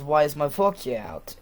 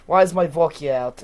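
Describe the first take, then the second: First: Said in the usual way. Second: Loud put-on Russian complaint; Russian accent. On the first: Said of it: "he would say vodka in a normal I-, American voice". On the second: Dad asking about his vodka, in a mock Russian accent. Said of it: "he does not say vodka like that".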